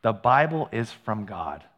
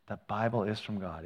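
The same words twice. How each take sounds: First: Slow, weighty stress on Bible; slow emphatic statement. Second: Soft repeated emphasis. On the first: Pastor to church, stressing Bible slowly. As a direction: lean on the word Bible, slowly. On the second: Pastor repeating the key line softly. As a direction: drop to a hushed repeat, stress on Bible. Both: Shown as a demonstration. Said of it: "if you get one thing today".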